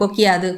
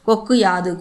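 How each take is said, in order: First: The words run together with a short 'i' vowel. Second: The first word ends in a clear 'u' vowel. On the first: "கொக்கியாது கொக்கியாதுன்னு சொல்லிடுவோம்" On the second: "கொக்கு யாதுன்னு வராது"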